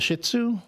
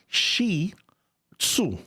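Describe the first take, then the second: First: The first syllable sounds like 'shit'. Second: The first syllable sounds like 'shee'. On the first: The speaker calls it wrong. "That's not how you pronounce it" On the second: The speaker calls it right. "It's Shi Tzu"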